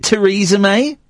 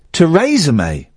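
First: "Theresa May" said tuh-REE-zuh May. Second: "Theresa May" said tuh-RAY-zuh May. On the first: Host asking which way to say the name, Theresa as tuh-REE-zuh. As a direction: say "Theresa" with a long ee in the middle. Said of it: "is it Theresa May? Or is it". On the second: Host offering the other way to say the name, Theresa as tuh-RAY-zuh. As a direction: say "Theresa" with ay in the middle. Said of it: "Or is it Theresa May". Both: Shown as a demonstration.

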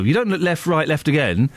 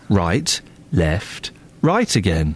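First: Said in the usual way. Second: "Right" said first, low and firm; stress on RIGHT. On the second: Shown as a demonstration. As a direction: lead with "Right", then "left", "right again". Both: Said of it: "You start with the right".

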